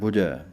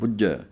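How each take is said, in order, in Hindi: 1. बीच का व्यंजन छोटा और नरम है। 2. बीच का व्यंजन दोहरा और कसा हुआ है। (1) "ਪੋਲਾ ਜਿਹਾ ਉਚਾਰਨ ਕਰਨਾ ਹੈ" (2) "ਕੱਸ ਕੇ ਬੋਲਿਆ ਜਾਂਦਾ ਹੈ"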